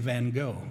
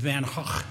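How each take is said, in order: First: The name is said in an American way. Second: The name is said in a Dutch way. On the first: "here in the U.S., we usually say Van Gogh" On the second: "he's Dutch. And the correct pronunciation is Van Gogh"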